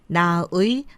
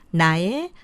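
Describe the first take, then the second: First: The final vowel is said as 'ui'. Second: The final vowel is said as 'e'. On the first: The speaker calls it wrong. "아니고" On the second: The speaker calls it right. "애로 발음이 되죠"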